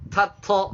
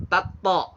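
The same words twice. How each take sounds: First: TATO with breath released on both T sounds; higher-pitched TATO, both consonants aspirated; wrongly breathy letters. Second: TATO with no breath on either T; both letters jahr. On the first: Teacher shows learners wrong tato, hamas on both letters. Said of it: "kalau tato salah". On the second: Teacher shows another wrong tato, both letters jahr. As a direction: say TATO with both consonants hard and unaspirated. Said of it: "dua-duanya dijaharkan". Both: Shown as a demonstration.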